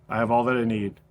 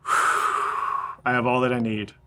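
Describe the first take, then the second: First: Quiet words breathed out after a sigh; soft exhale prayer. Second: Slow, soft prayer on a long out-breath; sighed out on the exhale. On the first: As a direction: release the line on the out-breath. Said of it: "a single breath". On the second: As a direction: let the line ride the exhale like a sigh. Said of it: "you inhale". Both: Shown as a demonstration.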